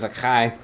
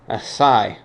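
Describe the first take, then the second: First: The middle consonant sounds like 'ch'. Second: The middle consonant sounds like 's'. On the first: The speaker calls it wrong. "Instead of the chai" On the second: The speaker calls it right. "the chai is pronounced asai"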